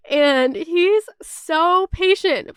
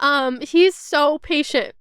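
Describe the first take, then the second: First: Slow, tearful, voice cracking with emotion; choking up while praising him; voice breaking. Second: Said in the usual way. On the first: Real, not acted. Praising her patient boyfriend, voice breaking into tears. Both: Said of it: "Sorry, I got kind of, like, emotional".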